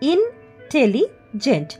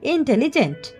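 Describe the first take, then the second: First: The word is broken into separate syllables. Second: The word is said smoothly as one unit.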